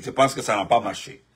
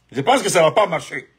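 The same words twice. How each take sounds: First: Said in the usual way. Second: Stronger repeat with the stress landing on "pense"; emphatic repeat. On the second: Real, not acted. Telling listeners the kidnapping plot failed, firm emphatic repeat. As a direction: restate it firmly, leaning on "pense".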